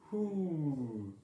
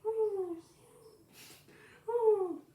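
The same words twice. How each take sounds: First: A higher, louder hoot; first try at sounding like an owl. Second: Very high, loud hooting; shrill owl hoot. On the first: Early Bird trying an owl hoot for Owl. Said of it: "You hear that? I sound so owlish". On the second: Early Bird's second, much higher owl hoot. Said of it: "Let me try it again". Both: Acted.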